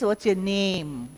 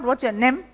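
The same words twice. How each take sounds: First: The vowel in name is long. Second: The vowel in name is short. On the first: The speaker calls it right. "It is" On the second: The speaker calls it wrong. "it's not"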